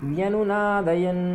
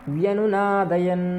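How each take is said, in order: Both takes have the same delivery.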